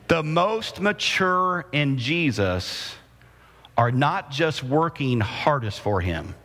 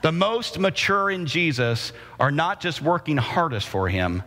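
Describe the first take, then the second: First: It is said slowly. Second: It is said at a normal pace.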